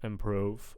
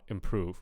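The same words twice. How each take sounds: First: The stressed vowel sounds like 'oh'. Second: The stressed vowel sounds like 'ooh'. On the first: The speaker calls it wrong. "I'm kind of hearing oh oh oh" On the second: The speaker calls it right. "but I want improve. Ooh ooh improve"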